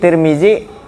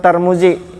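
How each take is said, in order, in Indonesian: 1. Suku kata pertama memiliki vokal i. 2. Suku kata pertama memiliki vokal a. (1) "Tiga macam tuh dibaca" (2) "Tiga macam tuh dibaca"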